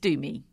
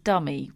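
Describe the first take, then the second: First: The first vowel is a long 'oo' sound. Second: The first vowel is a short 'uh' sound. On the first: The speaker calls it right. "It's Doomy" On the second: The speaker calls it wrong. "the alternative is Dummy, which it's not Dummy"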